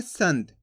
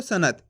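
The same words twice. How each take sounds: First: संत with a half न, nasal, two syllables sant; correct pronunciation. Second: सनत said with a full ना, as three syllables sa-na-t; wrong pronunciation. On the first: Teacher to students, demonstrating the correct reading संत. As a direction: read संत with the nasal half-na, no vowel after n. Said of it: "यहाँ पे अपन आधा ना का उच्चारण करेंगे तो कैसे पढ़ेंगे?". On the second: Teacher to students, demonstrating the wrong reading सनत. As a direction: read सनत with a separate full na sound. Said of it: "गलत हो रहा है शब्द". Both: Shown as a demonstration.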